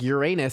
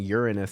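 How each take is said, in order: First: It sounds like the words 'your anus'. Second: It begins with a sound like 'urine'. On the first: "Uranus sounds like your anus" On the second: "Uranus sounds like urine"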